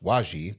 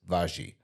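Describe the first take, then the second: First: The name begins with a W sound. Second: The name begins with a V sound. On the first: The speaker calls it wrong. "it's spelled like it would be pronounced Waji" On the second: The speaker calls it right. "but it's Vaji"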